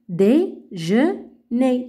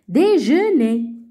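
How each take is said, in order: First: The word is read slowly. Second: The word is read faster.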